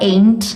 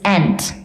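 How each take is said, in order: First: The vowel sounds like the letter name 'ay'. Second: The vowel sounds like a short 'eh'. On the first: The speaker calls it wrong. "It's not ain't" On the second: The speaker calls it right. "It's ant. Eh"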